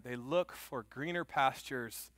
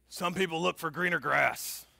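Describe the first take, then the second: First: Slow, weighty words; slow emphasis. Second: Put-on lightly gruff old coach; a hint of gravel, coach giving advice. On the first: Acted. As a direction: lean on each word, preacher style. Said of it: "preacher slows to drive the point home". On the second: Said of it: "in this gruff voice".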